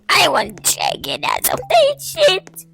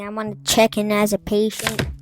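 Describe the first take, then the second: First: It is said in a weird, distorted voice. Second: It is said in a calm, normal voice.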